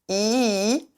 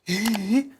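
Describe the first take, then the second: First: The vowel is clear, with no audible air. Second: The vowel is breathy, with much air. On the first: The speaker calls it right. "Idéalement, on veut pas d'air" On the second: The speaker calls it wrong. "avec beaucoup d'air par exemple. I, pas ça"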